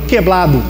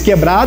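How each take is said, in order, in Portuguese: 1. A palavra é pronunciada com som de L. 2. A palavra é pronunciada com som de R. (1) "eles falariam queblado" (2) "se fosse falar português quebrado"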